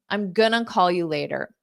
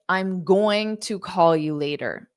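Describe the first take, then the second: First: "Going to" is squeezed into "gonna". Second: Each word of "going to" is said fully. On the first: "how many Americans will say this in fast speech" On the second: "you can absolutely say"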